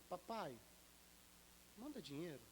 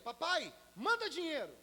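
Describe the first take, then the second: First: It is said in a gentle, pleading tone. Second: It is said in a harsh, demanding tone.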